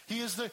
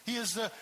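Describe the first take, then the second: No difference in how they are said.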